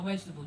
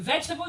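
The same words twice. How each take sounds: First: It is said in another Gullah accent form. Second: It is said in a standard English accent. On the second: "You say"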